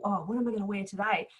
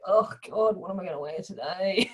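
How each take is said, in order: First: It sounds excited and eager. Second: It sounds dreading and weary.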